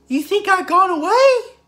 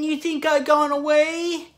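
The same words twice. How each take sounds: First: A high, squeaky cartoon voice is used. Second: A loose, drawling slacker cartoon voice is used. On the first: "like Mickey Mouse. What is it? How does he do it?" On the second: "And then there's Shaggy"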